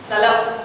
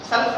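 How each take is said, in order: First: An a vowel comes after the l. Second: The l runs straight into the f. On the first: The speaker calls it right. "सलफ लाम जबर फतहा" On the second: The speaker calls it wrong. "सल्फ नहीं"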